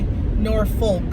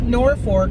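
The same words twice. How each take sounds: First: The second syllable is said without an R sound. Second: The second syllable is said with an R sound. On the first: This matches how the name is spelled. The speaker calls it right. "but it's actually Norfolk. It's F O L K, not F O R K" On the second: This is how the locals say it. The speaker calls it wrong. "They call it Norfolk"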